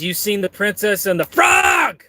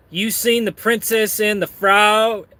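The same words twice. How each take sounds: First: High voice bursting into a yell on frog; mock shout for capital letters; screamed last word. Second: Higher read-out chat voice; lightly hammed-up question; Kevin. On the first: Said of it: "You gotta scream it". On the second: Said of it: "Kevin says".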